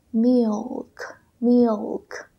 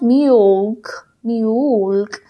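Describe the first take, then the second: First: "Milk" with a faint, light u, almost unheard. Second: "milk" with a heavy, drawn-out u, mi-ulk; exaggerated u in milk. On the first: Teacher showing the right, gentle "Milk". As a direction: keep the u in "Milk" barely there. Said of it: "si la hacemos ligeramente". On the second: Teacher showing how an overdone "milk" sounds odd. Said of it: "Si la exageramos". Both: Shown as a demonstration.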